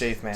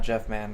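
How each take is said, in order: First: The first part is said like 'Jafe'. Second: The first part is said like 'Jeff'. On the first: The speaker calls it right. "It's Jafe Man" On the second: The speaker calls it wrong. "It's not Jeff Man"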